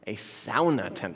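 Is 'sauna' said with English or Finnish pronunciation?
Finnish. Sauna is said with Finnish pronunciation.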